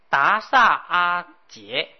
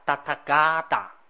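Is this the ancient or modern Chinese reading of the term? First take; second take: modern; ancient. First: It is said in the modern Chinese reading. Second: It is said in the ancient Chinese reading. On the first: "我们现在用波波波这么念" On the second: "在中国的古汉语里面念成叫达塔嘎达"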